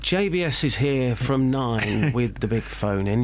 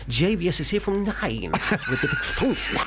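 First: It is read flatly, straight off the page. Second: It is lively, with an animated, twangy lift. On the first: The speaker calls it wrong. "Instead of saying" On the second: The speaker calls it right. "you can say"

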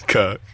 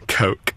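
First: The word is said in a strong regional accent. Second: The word is said without the strong accent. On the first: "say it properly, your silly voice" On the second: "I'm trying to lose the accent"

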